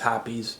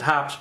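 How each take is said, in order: First: The name is said as two syllables. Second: The name is said as one syllable. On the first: The speaker calls it right. "but apparently it's Hoppe's" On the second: The speaker calls it wrong. "I always pronounce it hops"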